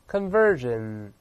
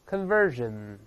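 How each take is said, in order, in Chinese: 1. 中间的辅音是浊音 'zh'。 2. 中间的辅音是浊音 'zh'。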